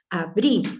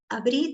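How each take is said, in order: First: It is said in a firm, ordering tone. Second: It is said in a soft, suggesting tone. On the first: It is an order. The speaker calls it wrong. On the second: It is a suggestion. The speaker calls it right.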